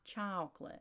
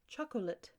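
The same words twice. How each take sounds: First: It is said with a Southern drawl. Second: It is said in a standard, non-Southern accent. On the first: The speaker calls it wrong. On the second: The speaker calls it right. "And say"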